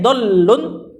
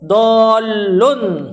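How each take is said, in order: First: The word is said with a short sound. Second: The word is said with a long sound. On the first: It names going astray in the abstract. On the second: It names someone who has gone astray.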